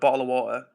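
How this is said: It is said in a British accent. "like a British person would"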